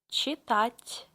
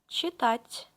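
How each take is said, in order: The two takes are said the same way.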